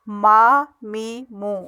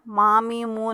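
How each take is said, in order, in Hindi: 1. स्वर मौखिक ध्वनि पर खत्म होते हैं। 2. स्वर नासिक्य ध्वनि पर खत्म होते हैं। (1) "ऐसे पढ़ना है" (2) "नाक में आवाज़ ले जाएंगे तो ये गलत हो जाएगा ... नहीं करना"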